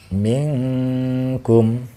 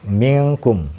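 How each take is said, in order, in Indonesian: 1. Bunyi n ditahan dengan dengung panjang. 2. Bunyi n pendek, tanpa dengung yang ditahan. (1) "Suara nun matinya didengungkan. Contohnya seperti ini" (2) "Yang ini salah ya"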